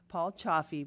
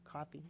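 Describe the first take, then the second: First: The name begins with a ch sound. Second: The name begins with a k sound. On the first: The speaker calls it right. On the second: The speaker calls it wrong.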